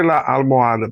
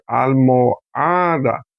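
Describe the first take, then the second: First: Said in the usual way. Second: "almohada" very slowly, split up, with a long stressed HA. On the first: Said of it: "Porque sílaba tónica". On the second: Shown as a demonstration. Teacher showing where the tonic syllable is, slow "almohada" stressed on HA. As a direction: stretch "almohada" to show the stressed HA. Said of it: "Sílaba tónica está aquí".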